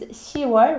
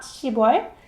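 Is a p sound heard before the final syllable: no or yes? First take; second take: no; yes. First: No p sound is heard in the middle. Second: A p sound is heard in the middle. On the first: The speaker calls it right. "October is 시월" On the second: The speaker calls it wrong. "Not 십월"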